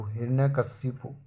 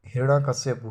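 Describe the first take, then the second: First: हिरण्यकशिपु ending kashipu; correct form. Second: हिरण्यकश्यपु ending kashyapu; wrong form. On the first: Teacher correcting it, हिरण्यकशिपु ending in kashipu. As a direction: say हिरण्यकशिपु with shi near the end. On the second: Teacher showing the error, हिरण्यकश्यपु ending in kashyapu. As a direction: say हिरण्यकश्यपु with shya near the end. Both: Shown as a demonstration. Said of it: "कश्यपु नहीं".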